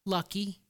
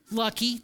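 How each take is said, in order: First: Dropped to a soft near-hush; softer, a quiet admission. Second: Said through a short laugh; a real laugh on the word. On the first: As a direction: let the word fall away, rueful. Admits it was only luck. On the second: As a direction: chuckle the word at yourself. Repeats with a laugh. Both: Real, not acted.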